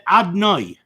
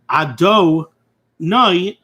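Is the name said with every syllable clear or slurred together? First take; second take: slurred; clear. First: The syllables run together, dropping a vowel. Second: Every syllable is pronounced clearly and fully. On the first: The speaker calls it wrong. "he said Adnoi, and he really did not say the Shem properly" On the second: The speaker calls it right. "instead of saying the Shem properly"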